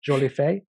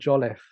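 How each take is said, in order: First: The name is given a fancy French-sounding pronunciation. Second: The name is said in a plain, simple English way. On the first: Others dress the name up to sound grander. The speaker calls it wrong. "make it sound a bit more fancy than it is" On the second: This is how the family really says it. The speaker calls it right. "It just sounds as simple as it can"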